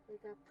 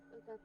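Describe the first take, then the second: No difference in how they are said.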